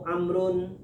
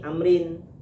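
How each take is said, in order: First: The name ends with a u sound before n. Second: The name ends with an i sound before n. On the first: "Kalau barisnya nu" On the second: "Kalau barisnya ni"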